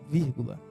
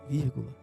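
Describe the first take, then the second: No difference in how they are said.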